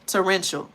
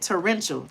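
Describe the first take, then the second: First: Torrential said as tor-EN-shul, confident fall; correct pronunciation. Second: Torrential repeated as tor-EN-shul; correct pronunciation. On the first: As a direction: nail Torrential after hearing it. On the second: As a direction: say Torrential once more, sure of it. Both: Shown as a demonstration. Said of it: "that's how I say it".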